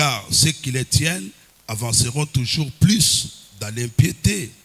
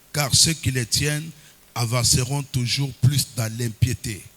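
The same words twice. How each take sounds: No difference in how they are said.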